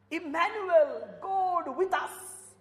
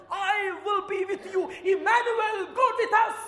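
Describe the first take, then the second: First: Slow, tearful repeat of the same words; tearful echo; voice breaking. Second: Loud, high proclaiming shout; full-force sermon cry; preaching. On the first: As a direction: let it catch in the throat. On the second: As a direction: proclaim it to the whole church. Preaching climax. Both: Acted.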